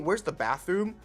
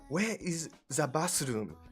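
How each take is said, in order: First: It is said in a plain English accent. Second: It is said in a Japanese accent. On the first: Japanese listeners will understand it less well. The speaker calls it wrong. "if you just said it in normal English" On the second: Japanese listeners will understand it better. The speaker calls it right. "if you actually just say it in a Japanese accent"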